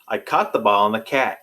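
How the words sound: It has a Great Lakes accent.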